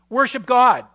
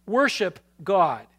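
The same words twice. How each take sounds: First: Louder, punched declaration of Worship God; emphatic answer. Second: Worship God said slowly, each word weighed; slow repeat. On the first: Pastor answering the congregation, loud and emphatic. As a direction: call out Worship God with force. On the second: Pastor repeating to the congregation, slow and deliberate. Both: Real, not acted.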